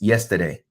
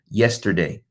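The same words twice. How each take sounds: First: The R in the middle is dropped. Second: The R in the middle is pronounced.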